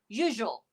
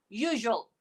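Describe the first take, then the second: Both takes have the same delivery.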